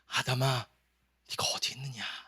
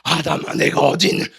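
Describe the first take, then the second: First: The call sounds tender and longing. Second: The call sounds stern and accusing. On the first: The caller misses and longs to see the one called. "아담을 너무 사랑해서 아담을 보고 싶은 마음" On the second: The caller is hunting down a wrongdoer. "하나님 왜 이렇게 부담스러워?"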